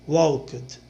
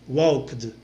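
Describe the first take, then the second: No difference in how they are said.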